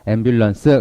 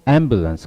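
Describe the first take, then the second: First: The syllables are even, with weak stress. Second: One syllable carries clear, strong stress. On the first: The speaker calls it wrong. "그러지 말고" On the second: The speaker calls it right. "강세 주시고요"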